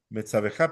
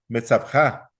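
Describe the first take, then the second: First: A short e is heard between b and j. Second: No vowel is heard between b and j. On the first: The shva is given its full sound. "si uno la pronuncia, uno va a decir metzabeja" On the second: This is how it sounds in modern speech. "en hebreo moderno casi no suena"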